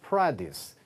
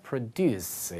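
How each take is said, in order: First: The stress is on the first syllable. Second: The stress is on the second syllable. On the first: It is the noun meaning farm goods. "produce 이렇게 쓰게 되면 농산물의 뜻입니다" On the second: It is the verb meaning to make. "강세가 뒤로 가서 produce 이렇게 되면 동사죠"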